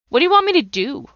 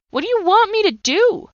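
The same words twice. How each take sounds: First: Much higher, louder, falling at the end; a demand thrown at God; desperate plea. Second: Far higher and louder, rising at the end; breaking-point plea to God; anguished cry. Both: Retold or imitated. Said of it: "I yelled and I screamed".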